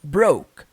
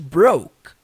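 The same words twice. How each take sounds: First: The final k is nearly silent. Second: The final k is nearly silent.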